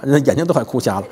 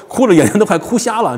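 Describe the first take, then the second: First: Said in the usual way. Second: "哭" hit high and loud with a long fall; exaggerated lament, lean on "哭"; emphatic. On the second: Shown as a demonstration. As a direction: stress 哭 in "哭瞎了", raised pitch.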